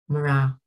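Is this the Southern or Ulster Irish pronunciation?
Ulster. It is said with an Ulster Irish r sound.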